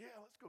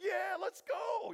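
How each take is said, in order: First: Much softer, furtive reply; quick, hushed agreement. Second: High, drawn-out hyped yell; jacked-up shout. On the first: Two guys sneaking out of camp, hushed agreement. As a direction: keep it down while sneaking off. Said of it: "they're probably real quick". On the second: Armor bearer answering Jonathan, jacked-up shout. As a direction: whoop it out, fully pumped up. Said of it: "gets them all jacked up". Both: Acted.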